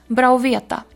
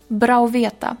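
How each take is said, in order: Both takes have the same delivery.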